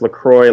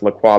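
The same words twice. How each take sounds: First: The second syllable rhymes with enjoy. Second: The second syllable does not rhyme with enjoy. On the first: This is how the company says it. The speaker calls it right. "they say it's pronounced LaCroix like enjoy" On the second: This is how people expect it to be said. The speaker calls it wrong. "you would think it was pronounced LaCroix"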